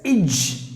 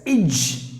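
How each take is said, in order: First: The vowel is short and reduced. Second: The vowel is short and reduced.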